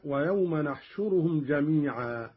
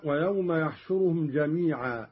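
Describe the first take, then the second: First: نحشرهم said "nahshuruhum", starting with n; nun of majesty. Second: Said in the usual way. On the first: Shown as a demonstration. Teacher demonstrating Qalun's reading, نحشرهم with initial nun. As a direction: begin نحشرهم on nun in place of yaa. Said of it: "قرأ قالون بنون العظمة هكذا". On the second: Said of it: "قرأ قالون بنون العظمة".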